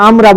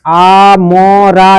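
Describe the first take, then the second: First: Said in the usual way. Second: আমরা broken into আ, ম, রা with gaps; split syllables. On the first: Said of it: "না আমরা বলবো?". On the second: Shown as a demonstration. Teacher showing the wrong way to divide, আ ... ম ... রা apart. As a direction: say আ, ম, রা as three separate drawn-out sounds. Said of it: "কেমন ভাবে উচ্চারণ করবো?".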